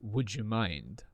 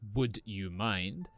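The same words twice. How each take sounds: First: The d and y blend into one j sound. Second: The d and y are said as separate sounds. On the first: The speaker calls it right. "but would you mind?" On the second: The speaker calls it wrong. "It's not would you"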